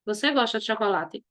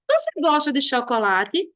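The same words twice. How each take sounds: First: "Você gosta de chocolate" lower and softer, falling; low falling end on "chocolate"; affirmative intonation. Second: "Você gosta de chocolate" rising at the end; questioning intonation. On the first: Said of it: "como se você estivesse afirmando". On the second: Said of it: "Olha a entonação". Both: Shown as a demonstration.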